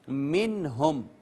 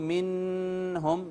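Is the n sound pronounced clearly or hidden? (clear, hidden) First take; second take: clear; hidden. First: The n sound is pronounced clearly and distinctly. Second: The n sound is hidden with nasalization. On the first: The speaker calls it right. "नून साकिन पे आवाज़ नहीं छुपाएंगे बल्कि जाहिर करके" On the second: The speaker calls it wrong. "इसको मिन हम नहीं पढ़ा जाएगा"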